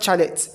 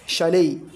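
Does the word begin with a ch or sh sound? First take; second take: ch; sh. First: The word begins with a ch sound. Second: The word begins with a sh sound. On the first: The speaker calls it wrong. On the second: The speaker calls it right.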